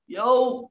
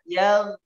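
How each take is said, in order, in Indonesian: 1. Berakhir dengan geseran mirip w yang berlebihan. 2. Berakhir dengan bunyi gh yang tebal dari tenggorokan. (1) "tidak boleh yaw yaw yaw yaw, ... ini yang terlalu berlebihan" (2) "suaranya menebal"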